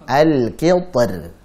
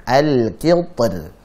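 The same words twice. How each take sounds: No difference in how they are said.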